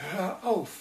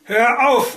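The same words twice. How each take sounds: First: "Hör auf" much higher, squeezed out, no longer shouted; strained voice. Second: "Hör auf" bellowed much higher and louder, nerves shot; frazzled bellow. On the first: Husband begs the radio to stop, strained and pressed. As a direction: force "Hör auf" out through a tight throat. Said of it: "sagte Felix mit gepresster Stimme". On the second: Husband roars at the crackling radio, a frantic bellow. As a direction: roar "Hör auf" at the radio, at the end of his rope. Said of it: "brüllte er völlig entnervt". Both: A narrator's reading.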